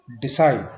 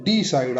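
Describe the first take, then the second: First: decide with short डि, strong side; light डि, punch side; second-syllable stress. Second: decide with a long stressed डी; wrong stress. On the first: Teacher giving the correct take, decide stressed on side. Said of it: "second". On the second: Teacher showing what not to say, decide stressed on डि. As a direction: hit DEE, weaken side. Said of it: "decide आपने नहीं बोलना". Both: Shown as a demonstration.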